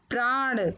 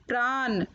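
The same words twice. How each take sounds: First: Said in the usual way. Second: प्राण said "praan" with dental न; mispronounced प्राण. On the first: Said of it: "फिर उनका शुद्ध उच्चारण". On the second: Shown as a demonstration. Teacher showing children the error, प्राण said with न. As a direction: end प्राण on a simple n, not ण. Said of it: "अशुद्ध शब्द मैंने रखे हैं".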